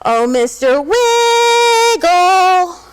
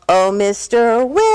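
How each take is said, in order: First: It is called louder than normal. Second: It is called at a fairly quiet level.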